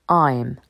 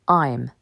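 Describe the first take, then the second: First: The words are merged into one short syllable. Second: The words are merged into one short syllable.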